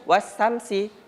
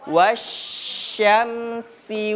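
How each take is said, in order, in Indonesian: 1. Konsonan setelah 'wa' adalah s biasa. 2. Konsonan setelah 'wa' adalah bunyi sh. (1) "Jadi baca jangan wasamsi, dia kurang pas dia bunyinya" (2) "Jadi kita bacanya wasyamsi"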